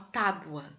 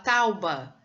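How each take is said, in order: First: The vowels are in order, sounding like tábua. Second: The vowels are swapped, sounding like tauba. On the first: The speaker calls it right. "Não, uma tábua" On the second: The speaker calls it wrong. "A pessoa fala tauba"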